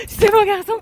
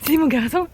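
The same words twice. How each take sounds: First: Even higher squeal of praise; excited dog talk. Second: Talking to a dog. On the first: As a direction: gush with more pitch. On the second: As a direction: coo at the dog. Repeated praise to dog. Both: Real, not acted.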